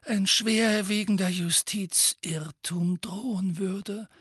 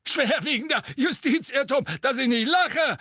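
First: Measured, calm "schwerwiegender Justizirrtum". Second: High cracking mocking "Schwerwiegender Justizirrtum". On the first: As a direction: state "schwerwiegender Justizirrtum" evenly and gravely. Dumbledore's calm take. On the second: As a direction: squawk "Schwerwiegender Justizirrtum" with a breaking voice. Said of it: "rief Fudge mit sich überschlagender Stimme". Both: A narrator's reading.

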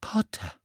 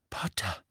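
First: Startled, voice rising; gasping in sudden shock; having a heart attack. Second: Shocked, breathless whisper; barely voiced in disbelief. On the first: Acted. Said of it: "Mühsam rang sie um Fassung". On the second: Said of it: "flüsterte Professor McGonagall".

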